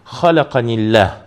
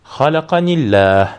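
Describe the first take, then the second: First: The two words are run together. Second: The two words are run together.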